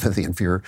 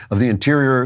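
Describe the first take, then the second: First: "Inferior" said through a small laugh, softer and lower; laughing at a slip. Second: Said in the usual way. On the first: Real, not acted. Host laughs at his own slip on "Inferior". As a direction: chuckle at your own mistake on "Inferior".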